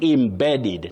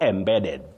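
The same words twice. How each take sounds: First: The word begins with a short 'im' sound. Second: The word begins with an open 'em' sound. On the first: The speaker calls it right. "The first E takes that sound E, the short sound E. Im" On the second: The speaker calls it wrong. "You don't say eh"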